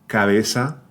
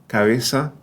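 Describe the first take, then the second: Both takes have the same delivery.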